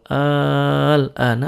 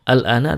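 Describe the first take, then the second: First: The first vowel is lengthened. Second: The first vowel is short. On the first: It asks whether it is now. "tapi kalau al-ana artinya apakah sekarang" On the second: It means now. "kalau al-ana artinya sekarang"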